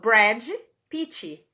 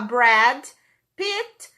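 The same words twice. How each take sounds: First: Each word ends with an added 'ee' vowel. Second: Each word ends cleanly on its final consonant. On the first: "Esse I que eu coloco no final" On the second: "em vez de eu falar"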